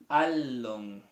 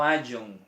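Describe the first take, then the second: First: The middle consonant is a clear L sound. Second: The middle consonant is a Y sound. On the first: The speaker calls it right. "no se ve como Y o doble L en castellano" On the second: The speaker calls it wrong. "no ayon"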